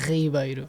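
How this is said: The name is said with a Portuguese pronunciation. "in Portuguese we say Ribeiro"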